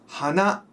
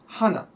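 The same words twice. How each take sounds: First: The pitch rises across the word. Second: The pitch falls across the word. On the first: "One goes up" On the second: "and one goes down"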